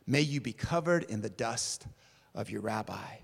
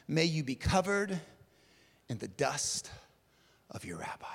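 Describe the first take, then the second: First: Said in the usual way. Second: Hushed blessing. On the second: Acted. First recital of the blessing.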